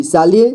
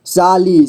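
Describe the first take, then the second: First: Said in the usual way. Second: साली drawn out as सा-ली; syllable by syllable. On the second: Shown as a demonstration. Teacher showing beginners how to read साली, syllable by syllable. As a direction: give each half of साली its own beat. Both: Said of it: "जोड़ जोड़ करके ही पढ़ना होगा".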